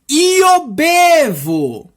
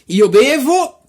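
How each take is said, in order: First: It is said slowly. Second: It is said quickly. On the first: "Agora vamos tentar de falar devagarzinho" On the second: "é muito rápido"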